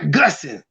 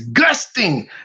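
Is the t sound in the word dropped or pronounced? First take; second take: dropped; pronounced. First: The t sound in the middle is dropped. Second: The t sound in the middle is pronounced. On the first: The speaker calls it wrong. "not gussing" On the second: The speaker calls it right. "The wind was gusting"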